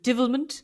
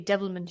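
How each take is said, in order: First: The word has an Irish-sounding vowel in the first syllable. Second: The word has a standard vowel in the first syllable. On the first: This is how the guest said it. "you said divilment" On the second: This is the usual way to say it. "You said you didn't say devilment"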